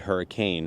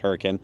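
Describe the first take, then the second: First: It is said the usual way, like the storm. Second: It is said the way local people say it. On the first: This is how the storm word is said. "it's actually hurricane" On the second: This is how people living there say it. "the locals pronounce this Hurricane"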